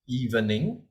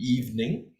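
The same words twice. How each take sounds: First: The middle vowel is sounded as a syllable. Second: The middle vowel is silent, leaving two syllables. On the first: The speaker calls it wrong. "this word is pronounced as evening" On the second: The speaker calls it right. "it should be evening. The middle E is silent"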